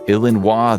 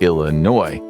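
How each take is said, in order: First: It is said with a French pronunciation. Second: It is said with a non-French pronunciation. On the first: "kept the French spelling but ditched the pronunciation. Instead of" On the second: "they went with"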